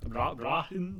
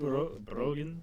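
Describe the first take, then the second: First: "Brahin" with an open ah vowel; tentative pronunciation. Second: "Brogan" with a long o, drawn out; tentative pronunciation. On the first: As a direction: stumble into "Brahin" as a higher-pitched guess. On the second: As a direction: stumble into "Brogan" as a slow question. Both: Shown as a demonstration. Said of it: "We're bad at pronouncing things".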